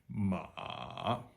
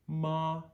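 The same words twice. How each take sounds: First: The pitch dips very low, then rises slightly. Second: The pitch stays high and level. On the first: "Starts low, goes as low as we possibly can put our voice" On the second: "first tone is the chorus tone"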